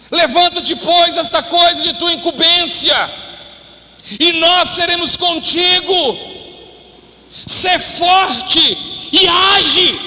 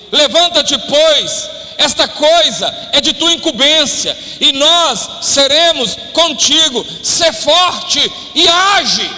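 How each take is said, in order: First: Higher, slower charge ending in a shout; slow preached charge, shouting Sê forte e age; forceful scripture exhortation. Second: Slow, weighty reading of the verse; slow preached scripture, rising to a shout on age; emphatic scripture reading. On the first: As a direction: hammer the verse home as a rallying cry. Verse repeated with more force. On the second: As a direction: read it as a solemn charge, building to a call. Preacher reading Bible exhortation. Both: Acted.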